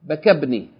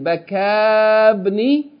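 First: The vowel after the k is cut short. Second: The vowel after the k is held long. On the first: The speaker calls it right. "the long vowel of Baka, is going to be shortened" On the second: The speaker calls it wrong. "instead of saying Bakabni"

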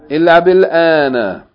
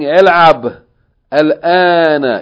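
First: A short i vowel links the two words. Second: The words meet with no linking vowel. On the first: The speaker calls it right. "you say what?" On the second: The speaker calls it wrong. "Instead of saying"

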